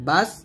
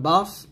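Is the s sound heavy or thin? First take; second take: thin; heavy. First: The s sound is thin and light. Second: The s sound is heavy and emphatic. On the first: The speaker calls it right. "পাতলা করে সিনের উচ্চারণ করতে হবে" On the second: The speaker calls it wrong. "বাস সদ জবর বাস পড়া যাবে না"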